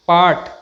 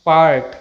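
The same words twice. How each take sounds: First: Part as "paat"; silent r. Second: Part with an audible r before t; sounded r. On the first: Teacher models the correct word, r silent. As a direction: drop the r in Part. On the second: Teacher shows the mistake, r sounded. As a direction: pronounce the r in part. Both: Shown as a demonstration.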